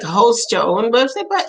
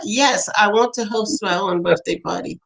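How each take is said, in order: First: Mildly incredulous question with a rise; retold parental puzzlement. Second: Understated firm reply, falling away; retold child's insistence. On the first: Parents answering their son's odd request, mildly puzzled. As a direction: question "party" back in mild disbelief. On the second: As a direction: confirm it matter-of-factly after "Yes".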